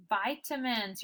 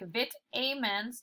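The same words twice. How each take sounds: First: Vitamins as "VY-tuh-mins", long first I; corrected reading of vitamins. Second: Vitamins as "vit-AY-mens", short I, long A; wrong reading of vitamins. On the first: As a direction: start Vitamins like "vie", weak middle vowel. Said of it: "What should the word be?". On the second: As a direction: put a long A inside vitamins. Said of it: "change the pronunciation of the word". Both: Shown as a demonstration.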